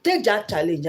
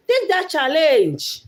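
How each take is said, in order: First: Said in the usual way. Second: High, loud, drawn-out rallying call; emphatic urging. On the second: Real, not acted. Vlogger urging viewers to take that challenge, emphatic. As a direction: push it out slowly and forcefully to the audience.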